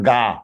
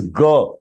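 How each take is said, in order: First: "Ga" with a long open "aa"; wrong long vowel. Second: "G" sounded as a short "guh"; short vowel. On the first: Teacher showing what to avoid, "Ga" as long "gaa". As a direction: stretch "Ga" into "gaa". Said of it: "It is not Ga". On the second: Teacher giving the sound, "G" as short "guh". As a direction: keep the vowel of "G" brief. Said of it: "That is G". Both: Shown as a demonstration.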